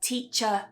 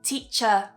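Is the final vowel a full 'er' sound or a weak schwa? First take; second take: weak schwa; weak schwa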